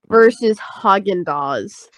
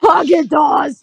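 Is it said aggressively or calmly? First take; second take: calmly; aggressively. First: It is said in a calm, plain way. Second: It is said in an aggressive, forceful way.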